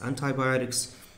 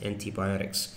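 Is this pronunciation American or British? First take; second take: American; British. First: It is said with an American pronunciation. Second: It is said with a British pronunciation. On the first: "Americans pronounce it as antibiotics" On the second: "British people or Canadians I think also pronounce this word as antibiotics"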